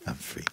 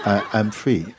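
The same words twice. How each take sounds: First: Flat quiet take. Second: Lightly laughing, happy I'm free; joyful with a laugh. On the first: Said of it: "how are you going to tell like that". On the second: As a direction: say I'm free with a glad chuckle. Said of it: "No, you know". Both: Shown as a demonstration.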